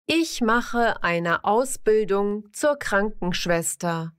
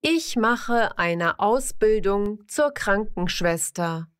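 The two takes are said the same way.

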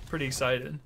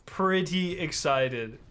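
First: Said in the usual way. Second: "Pretty excited" stretched out slowly; slow, savoured "Pretty excited"; drawn-out emphasis. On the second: Real, not acted. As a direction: draw out "Pretty excited" at half speed.

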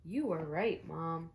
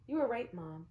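First: Called from bedroom. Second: "You were right, Mom" called out higher and louder, as if from another room; boy calling to mom from his bedroom. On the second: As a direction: call it out from down the hall. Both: A narrator's reading. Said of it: "Spencer called from his bedroom".

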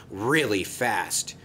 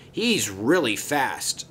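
First: "really fast" drawn out slowly; emphatic repeat. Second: Said in the usual way. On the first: Acted. Bus warning Thomas about the car, slow emphatic "really fast". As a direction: stretch "really fast" to stress it.

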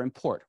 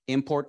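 First: ImPORT, stressed on the second syllable as a verb; "import" with the weight at the end, on PORT. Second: IMport, stressed on the first syllable as a noun; "Import" with the weight up front, on IM. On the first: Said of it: "the verbs on the second syllable". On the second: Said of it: "nouns have the stress on the first syllable". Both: Shown as a demonstration.

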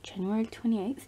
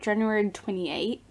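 First: Soft whispered reminder of the date; whispered repeat. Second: Said in the usual way. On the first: Real, not acted.

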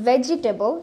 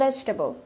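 First: "vegetable" in four syllables, "ve-ji-te-bol"; "vegetable" with a full "ji" and "tay"; mispronounced vegetable. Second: "vegetable" in three syllables, "vej-tuh-bul"; correct pronunciation. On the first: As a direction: say "vegetable" wrongly with every vowel sounded. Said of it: "So it's not vegetable". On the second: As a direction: say "vegetable" with the middle vowel dropped. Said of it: "it's vegetable". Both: Shown as a demonstration.

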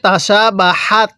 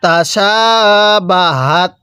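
First: তাশা বা হাত quick, vowels not held; mistaken ha. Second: তাশা বা হাত slow, "shaa" held long; careful tajweed model of তাশা বা হাত; correct light ha. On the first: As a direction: say হাত with the wrong, careless h. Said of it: "এরকমভাবে পড়ি". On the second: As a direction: give হাত a light, voiced round h. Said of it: "এরকমভাবে পড়তে হবে". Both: Shown as a demonstration.

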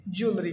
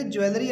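First: "ज्वेलरी" as jool-ri, oo vowel; current pronunciation. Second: "ज्वेलरी" as jwel-ri, w and e; old pronunciation. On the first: Teacher giving today's way, jool-ri. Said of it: "अब कहते थे इसे". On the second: Teacher recalling the former way, jwel-ri. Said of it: "इससे पहले कहते थे". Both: Shown as a demonstration.

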